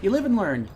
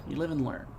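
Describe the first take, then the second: First: Said in the usual way. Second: Murmured under the breath; quiet resigned echo. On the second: Shown as a demonstration. Gamer echoing his own shrug, much softer. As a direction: repeat it much softer, to yourself.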